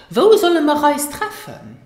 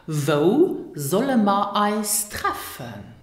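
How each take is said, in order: First: Quick, linked, higher and louder; natural spoken. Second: Slow, word by word; slow careful model. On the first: Teacher showing learners natural spoken speed. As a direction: rattle it off like a native. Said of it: "in more natural spoken Luxembourgish". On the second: Teacher modelling the question slowly for learners. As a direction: spell the words out slowly for learners. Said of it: "Zum Beispiel". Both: Shown as a demonstration.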